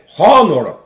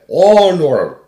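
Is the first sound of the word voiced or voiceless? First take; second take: voiceless; voiced. First: It begins with a voiceless, rough ch sound. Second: It begins with a voiced, soft g-like sound. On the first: The speaker calls it wrong. "mówi się po polsku nie honor" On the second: The speaker calls it right. "ale honor"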